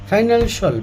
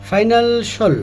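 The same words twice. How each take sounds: First: The ending is said as 'shul'. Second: The same.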